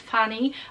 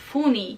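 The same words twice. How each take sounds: First: The first vowel is an open 'uh' sound. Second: The first vowel is a rounded 'oo' sound. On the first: "kiedy ja bym chciała powiedzieć" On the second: "on powie"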